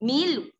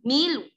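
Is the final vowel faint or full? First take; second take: faint; faint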